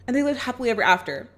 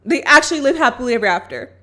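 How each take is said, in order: First: Said in the usual way. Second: "actually" leaned on, a bit louder; stress on actually. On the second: Shown as a demonstration. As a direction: really hit "actually" to insist.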